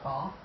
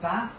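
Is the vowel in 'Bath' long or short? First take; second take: long; short. First: The vowel is long, like in 'father'. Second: The vowel is short, like in 'cat'.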